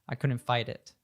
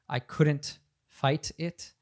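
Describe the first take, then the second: First: The T in fight is a soft D-like tap. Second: The T in fight is a crisp T. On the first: "the T turns into a D and connects to the it" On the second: "she doesn't say"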